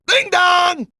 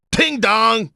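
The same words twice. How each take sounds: First: Ding dong pitched way up; high mock bell chime. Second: Ding dong in usual pitch; mock bell chime. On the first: Imitating the ring bell, second time. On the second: Imitating the ring bell.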